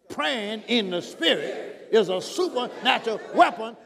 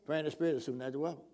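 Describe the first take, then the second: First: The sentence is said forcefully with authority. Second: The sentence is said flatly with little energy. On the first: The speaker calls it right. "you got to say it with authority" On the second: The speaker calls it wrong. "Not just, you know"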